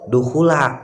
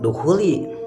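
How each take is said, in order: First: The word ends with an 'a' vowel. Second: The word ends with an 'i' vowel. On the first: The speaker calls it right. "tapi duhula" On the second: The speaker calls it wrong. "bukan duhuli"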